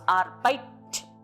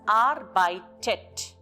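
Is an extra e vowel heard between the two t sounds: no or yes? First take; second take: no; yes. First: The two t sounds run together with no vowel. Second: An e vowel separates the two t sounds. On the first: The speaker calls it wrong. "without E, it becomes arbeit, where the two T's are together and doesn't sound good" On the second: The speaker calls it right. "with this T in between, it sounds as arbeitet"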